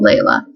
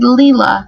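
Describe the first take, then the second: First: The first vowel sounds like 'lay'. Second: The first vowel sounds like 'lee'. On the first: This is how the written name looks. "I thought, oh, Layla" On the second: This is how the name's owner says it. "she said Leela"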